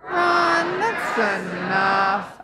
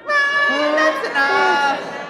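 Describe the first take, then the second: First: Shouted Run then slow that's enough; shouted catchphrase. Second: High Run, then a slow that's enough; throwaway delivery. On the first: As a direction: call out Run then drag the rest. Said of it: "One, two, three". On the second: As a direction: toss it off, drawn-out. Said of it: "maybe throw it away more". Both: Shown as a demonstration.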